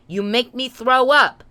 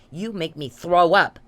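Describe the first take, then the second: First: Angry repeat. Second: Said in the usual way. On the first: Real, not acted. Repeats line louder.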